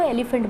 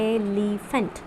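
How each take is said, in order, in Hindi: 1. शब्द बिना रुकावट के एक साथ सहजता से बोला जाता है। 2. शब्द अलग-अलग सिलेबल में बँटा हुआ बोला जाता है। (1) "हम नॉर्मली तो इसको एलिफेंट बोलते हैं" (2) "एलिफेंट को सिलेबल में डिवाइड करें तो हमें मिलता है"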